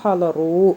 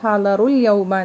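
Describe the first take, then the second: First: The verb is said alone, ending in a stop. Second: The verb runs straight into the next word. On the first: "നിർത്തി പറയുമ്പോൾ" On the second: "കൂട്ടി പറയുമ്പോൾ"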